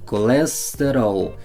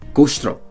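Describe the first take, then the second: First: Brazilian accent, with every vowel fully pronounced. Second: European accent, said fast with vowels dropped. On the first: "En Brasil hablan tranquilamente pronunciando todo como se debe" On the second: "en Portugal dirían custro"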